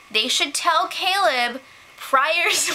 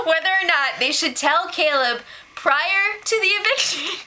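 First: Breaking into laughter mid-line; can't hold back the giggles; slow, laugh-filled delivery. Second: Said in the usual way. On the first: Real, not acted. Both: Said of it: "why are you laughing?".

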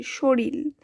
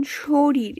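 First: শরীর said as shoril, ending in a held l; final l. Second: Said in the usual way. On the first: Shown as a demonstration. Teacher repeating the changed word, শরীর pronounced shoril. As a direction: say শরীর with an l replacing the last r. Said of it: "ল আসছে". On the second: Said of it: "র দুইবার আছে".

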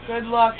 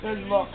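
First: "luck" with an open uh vowel; good luck. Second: "luck" said like "look", rounded oo vowel; good look. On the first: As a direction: say "luck" clearly, as in duck. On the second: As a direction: turn "luck" into "look", short oo. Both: Shown as a demonstration. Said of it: "Good look, not good luck".

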